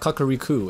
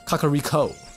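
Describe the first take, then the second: First: The vowel is said as an 'oo' sound. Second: The vowel is said as an 'oh' sound. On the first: The speaker calls it wrong. "not a U, so it's not Kakariko" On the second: The speaker calls it right. "It's an O"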